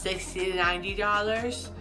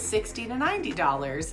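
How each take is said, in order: First: The consonants are slurred and unclear. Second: All the consonants are pronounced clearly. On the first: The speech was still impaired after healing began. The speaker calls it wrong. "I would really hear it in pricing" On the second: The speech was fully recovered. The speaker calls it right. "and I had it all back"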